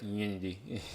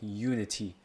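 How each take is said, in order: First: The word is said in a mumbled way. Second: The word is said clearly and carefully. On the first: The speaker calls it wrong. "not like Unity. It's like I mumble a lot" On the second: The speaker calls it right. "I want to like confirm it's like Unity"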